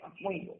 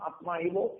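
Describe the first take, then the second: First: The two words are merged into one word. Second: The two words are said separately, unjoined. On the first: "সন্ধি যুক্ত করে বা সন্ধি করে গীতার শ্লোককে উচ্চারণ করা" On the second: "সন্ধি বিভক্ত করে উচ্চারণ করা"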